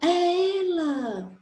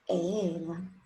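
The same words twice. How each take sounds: First: It is said as a surprised exclamation. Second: It is said as a plain statement.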